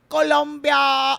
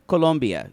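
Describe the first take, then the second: First: It is said with an exaggerated, overdone foreign accent. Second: It is said plainly, in normal English pronunciation. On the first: "Instead, he goes" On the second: "you can pronounce things uh, correctly without overdoing it"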